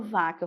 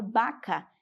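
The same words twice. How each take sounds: First: "vaca" with a true V sound; "vaca" with V, not B; Portuguese V. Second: "vaca" opening with a B sound; Spanish "vaca", said like "baca". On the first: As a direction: start "vaca" with teeth on lip, as V. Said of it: "Não falo vaca". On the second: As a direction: turn the V of "vaca" into B. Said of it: "eu falo vaca". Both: Shown as a demonstration.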